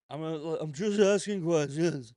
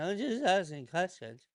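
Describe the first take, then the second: First: Slower, louder put-on voice, drawing out the line; leaning into a sly innocent tone; Candace Owens impression. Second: Put-on voice with a faux-innocent lilt; Candace Owens impression. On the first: Mocking Candace Owens for his viewers, a slow loud put-on. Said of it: "my best Candace Owens impression". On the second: Doing Candace Owens for his audience, faux-innocent put-on voice. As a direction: play it as a sly just-curious question. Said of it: "I'm gonna do my best Candace Owens impression".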